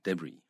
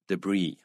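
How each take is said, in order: First: The stress is on the first syllable. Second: The stress is on the second syllable. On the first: This is the British way to say it. "英式发音呢，它重音在第一第一个音节" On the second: This is the American way to say it. "美式发音啊，重音在第二音节"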